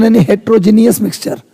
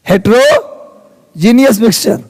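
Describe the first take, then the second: First: Said in the usual way. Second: heterogeneous mixture drawn out slowly, each syllable clear; teacher repeats heterogeneous mixture slowly for students to copy; slow repeat for class. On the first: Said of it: "विषमांग मिश्रण". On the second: Shown as a demonstration. Teacher repeating the term to class, slow and syllable by syllable.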